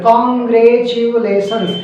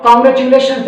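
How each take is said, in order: First: Congratulations read very slowly, syllable by syllable; broken into syllables. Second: Said in the usual way. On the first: Shown as a demonstration. Teacher shows pupils how to read Congratulations slowly. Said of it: "मतलब syllabus में तोड़ देते हैं". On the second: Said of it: "जैसे हम लोग बचपन में सीखते हैं ना".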